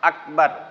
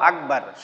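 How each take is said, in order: First: The middle consonant is a voiceless k sound. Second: The middle consonant is a voiced g sound. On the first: The speaker calls it right. "এটা হলো সঠিক বাংলা দিয়ে বলবো" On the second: The speaker calls it wrong. "অধিকাংশই আমরা বলে ফেলাই কি সরেয়া গ"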